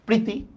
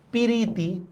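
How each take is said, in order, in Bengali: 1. যুক্তবর্ণটি একসাথে থাকে। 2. একটি অতিরিক্ত স্বরধ্বনি যুক্তবর্ণটিকে ভেঙে দেয়। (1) "দেখেন এটা একটা যুক্ত বর্ণ না?" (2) "আমি এখান থেকে বললাম পিরিতি"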